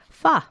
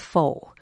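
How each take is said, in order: First: The pitch rises at the end of the word. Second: The pitch stays level without a rise. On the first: The speaker calls it right. "make it a rising inflection at the end" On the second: The speaker calls it wrong. "For years, I called this pho"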